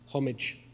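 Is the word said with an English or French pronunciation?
English. The word is said with English pronunciation.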